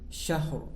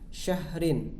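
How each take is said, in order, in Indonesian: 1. Kata ini berhenti pendek pada konsonan akhir. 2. Kata ini berakhir dengan vokal dan akhiran sengau.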